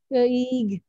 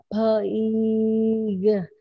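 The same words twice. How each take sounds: First: The word is said somewhat faster, less stretched. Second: The word is stretched out slowly, sound by sound. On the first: "Ayo lebih cepat Kak" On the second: "baca panjang"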